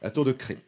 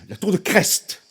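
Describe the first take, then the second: First: The name is said the local way. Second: The name is said the standard French way. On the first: "comment tu dis en France? La tour de Cré, n'est-ce pas? Ok" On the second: "je prononce à la, à la française"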